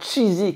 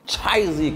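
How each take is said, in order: First: Said in the usual way. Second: « Cheesy » étiré, à l'américaine, prononcé « tchaïzi »; accent américain raté. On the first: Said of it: "comme diraient les Anglais". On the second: Shown as a demonstration. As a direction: fais déraper « Cheesy » en « tchaïzi » avec un faux accent américain. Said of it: "je voulais faire l'accent américain". (« Cheesy » avec un accent américain exagéré et raté)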